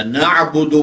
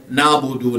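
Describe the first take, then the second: First: نعبدو with a full throat ع; Arabic pronunciation. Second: نعبدو with ع dropped into a long aa. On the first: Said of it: "اس طرح ان کا تلفظ کریں جس طرح ایک عرب کرتا ہے". (نعبدو عربی تلفظ میں، ع حلق سے) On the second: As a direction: say نعبدو the Urdu way, as naabudu. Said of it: "نہ بولیں". (نعبدو اردو لہجے میں، ع کی جگہ الف) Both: Shown as a demonstration.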